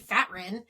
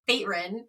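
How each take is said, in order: First: The first vowel is short. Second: The first vowel is long. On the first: The speaker calls it right. "his name must be Fatrin" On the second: The speaker calls it wrong. "not Faterin"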